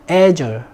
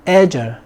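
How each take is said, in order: No difference in how they are said.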